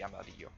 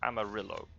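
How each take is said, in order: First: The name is said with a Spanish pronunciation. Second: The name is said with an English pronunciation. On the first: The speaker calls it right. "now that I know Spanish" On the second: The speaker calls it wrong. "the English way would be"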